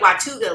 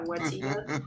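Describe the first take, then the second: First: The name is said in a pirate-like way. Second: The name is said in a plain way. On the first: "I like saying it Watuga, like it's from like uh, Pirates of the Caribbean" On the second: "I don't even know if I'm saying that correctly"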